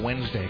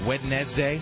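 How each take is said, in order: First: The word is squeezed into two short syllables. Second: Every letter of the word is sounded out. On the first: "smash it down into a Wednesday kind of a thing" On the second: "actually is pronounced Wednesday"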